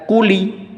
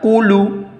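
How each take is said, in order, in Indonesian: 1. Kata itu diakhiri dengan tambahan vokal i. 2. Kata itu diakhiri dengan tambahan vokal u. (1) "tidak dibaca kuli" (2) "tidak dibaca kulu"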